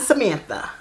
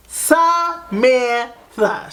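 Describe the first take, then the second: First: Said in the usual way. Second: "Samantha" stretched syllable by syllable, high; drawn-out emphasis. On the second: Retold or imitated. Calling her friend after the discovery, "Samantha" in slow, separate syllables. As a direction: say "Samantha" very slowly, each syllable held and pitched up. Repeats friend's name in shock.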